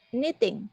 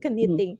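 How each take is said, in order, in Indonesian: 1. Kata ini dimulai dengan bunyi N, K tidak diucapkan. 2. Kata ini dimulai dengan bunyi K yang diucapkan. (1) "Huruf K-nya itu silent" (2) "Ini tulisannya keniting"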